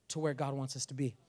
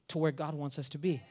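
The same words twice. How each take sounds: The two takes are said the same way.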